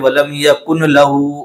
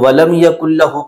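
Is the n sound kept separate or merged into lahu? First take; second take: separate; merged. First: The n is said separately before lahu. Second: The n merges into a doubled l sound. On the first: The speaker calls it wrong. "बहुत सारे लोग पढ़ते हैं वलम यकुन लहू, तो कुन लहू नहीं है" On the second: The speaker calls it right. "इसको तजवीद के साथ पढ़ना है मिला करके"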